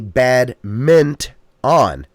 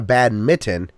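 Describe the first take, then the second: First: The middle sounds like 'mint', with an n. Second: The middle sounds like 'mitten', without an n. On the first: The speaker calls it right. "It's a bad mint on. Don't forget the N" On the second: The speaker calls it wrong. "It's not a bad mitten"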